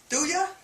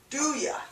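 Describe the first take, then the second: First: The word you is reduced to ya. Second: The same.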